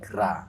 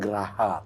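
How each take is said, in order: First: The g and r join with no vowel. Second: A vowel is heard between the g and r. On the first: It means house or palace. The speaker calls it right. "tapi gra" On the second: It means crocodile or destroying. The speaker calls it wrong. "Bukan geraha"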